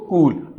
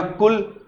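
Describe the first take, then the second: First: कूल with a long, stretched oo; long vowel. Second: कुल with a brief, short u; short vowel. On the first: Teacher contrasting two vowel lengths for pupils, long vowel. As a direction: hold the oo in कूल longer. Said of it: "यहां sound ज्यादा होगा". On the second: Teacher contrasting two vowel lengths for pupils, short vowel. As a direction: keep the u in कुल short and quick. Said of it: "यहां sound कम होगा". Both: Shown as a demonstration.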